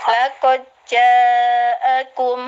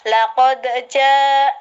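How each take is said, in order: First: The d merges straight into the following j. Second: The d is released with a short echoing bounce. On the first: "aku baca secara id idgham" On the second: "secara qalqalah"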